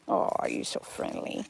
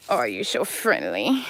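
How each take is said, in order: First: Soft breathy whisper to the animal. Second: Said in the usual way. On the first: Real, not acted. Owner whispering tenderly to her friendly goat.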